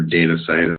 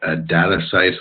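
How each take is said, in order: First: "data" said DAY-tuh, with a long a; alternative pronunciation. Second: "data" said DAT-uh, with a short a; alternative pronunciation. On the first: Presenter offering another name reading, "data" as DAY-tuh. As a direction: say the first syllable of "data" like "day". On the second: Presenter unsure of the service's name, "data" with short a. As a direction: say "data" to rhyme with "matter". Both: Real, not acted. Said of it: "how you pronounce that".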